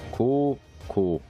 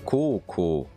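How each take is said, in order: First: The vowels are drawn out long. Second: The vowels are said short. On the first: It means high school. "Le O est plus long" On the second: It means here. "C'est ici"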